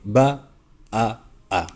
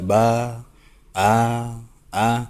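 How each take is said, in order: First: The vowels are kept short. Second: The vowels are drawn out long. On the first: The speaker calls it right. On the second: The speaker calls it wrong. "bukan dibaca"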